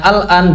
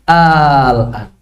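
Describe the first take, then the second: First: The opening vowel is short. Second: The opening vowel is drawn out long. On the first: It is a statement. "Yang asalnya al-an" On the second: It asks a question. "ditambah hamzah istifham menjadi al-an"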